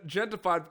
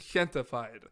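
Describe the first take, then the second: First: The first sound is an English J. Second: The first sound is an H. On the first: The speaker calls it wrong. "I said Gentified because I saw like other interviews" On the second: The speaker calls it right. "technically it's Gentified ... pronouncing the J like an H"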